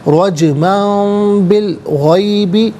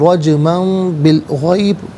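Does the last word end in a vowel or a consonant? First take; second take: vowel; consonant. First: The final word ends with a short i vowel. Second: The final word stops on a bare consonant. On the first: The reading continues without stopping. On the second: The reading stops at this point.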